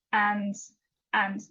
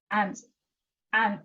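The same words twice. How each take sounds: The two takes are said the same way.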